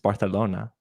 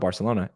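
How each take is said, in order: First: The c is said with a th sound. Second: The c is said with an s sound. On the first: The speaker calls it right. "it's Barcelona with the" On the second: The speaker calls it wrong. "It's not Barcelona"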